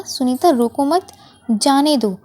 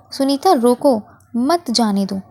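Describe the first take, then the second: First: "Sunita रोको मत" in one go, short stop, "जाने दो"; pause after मत. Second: "सुनीता रोको", short stop, "मत जाने दो" in one go; pause after रोको. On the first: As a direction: break the sentence after "मत", joining it to "रोको". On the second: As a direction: break the sentence after "रोको", joining "मत" to "जाने दो". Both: Shown as a demonstration. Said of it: "जहाँ पर हमने वाक्य को रोका".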